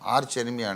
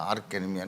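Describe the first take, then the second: First: Arch ends with a ch sound. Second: Arch ends with a k sound. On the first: This is how people usually say it. "ఆర్చ్ enemy అంటారు" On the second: This is the speaker's deliberate personal usage. "నేను ఆర్క్ enemy అని అంటా కావాలని"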